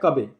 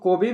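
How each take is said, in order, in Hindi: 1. पहला स्वर 'uh' जैसा बोला जाता है। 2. पहला स्वर 'oh' जैसा बोला जाता है। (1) "लेकिन इसको पढ़ा जाता है कबे" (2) "इसको कोबे भी पढ़ सकते हो, कोई दिक्कत नहीं है"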